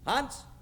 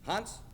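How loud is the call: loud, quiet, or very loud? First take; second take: loud; quiet. First: The name is called out loudly. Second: The name is called at a moderate volume.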